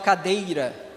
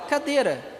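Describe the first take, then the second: First: The middle vowel is a diphthong with a glide. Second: The middle vowel is a plain vowel, no glide. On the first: This is a rare careful form. "Ou vocês falam cadeira? ... Não, é muito raro" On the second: This is the everyday spoken form. "A gente fala cadeira"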